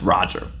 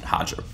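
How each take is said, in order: First: The name begins with an English R sound. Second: The name begins with an H sound. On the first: The speaker calls it right. "he'll tell you his name's pronounced Roger" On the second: The speaker calls it wrong. "He doesn't pronounce it Hodger"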